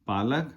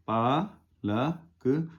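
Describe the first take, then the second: First: Said in the usual way. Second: पालक stretched very slow, each syllable pa-la-k held; slow demonstration of पालक, syllable by syllable; drawn out slowly. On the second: Shown as a demonstration. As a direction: draw out पालक slowly for the learner. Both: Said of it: "पा पर आ की मात्रा".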